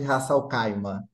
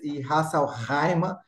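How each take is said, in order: First: The name is pronounced with Brazilian Portuguese sounds. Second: The name is pronounced with Arabic sounds. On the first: "aqui a brasileirando a gente chama de" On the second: "como se diz em árabe"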